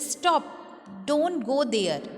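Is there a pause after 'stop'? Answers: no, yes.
yes. There is a pause after stop.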